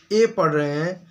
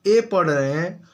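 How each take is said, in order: Both takes have the same delivery.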